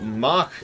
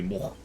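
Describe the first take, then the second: First: The word is said with its usual English vowel. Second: The word is said with an 'oh' vowel.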